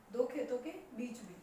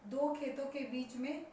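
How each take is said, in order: Both takes have the same delivery.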